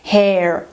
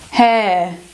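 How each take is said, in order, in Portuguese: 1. É pronunciada com uma vogal longa americana. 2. É pronunciada com uma vogal ditongo britânica. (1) "Se fosse pronunciar americano, ela passaria para essa lista, ficaria hair" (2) "Ré, ré, em britânico"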